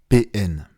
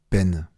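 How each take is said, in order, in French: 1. On l'épelle en deux lettres séparées. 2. On le prononce comme un seul mot, comme peine.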